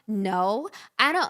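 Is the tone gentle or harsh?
harsh. It is said in a sharp, rude tone.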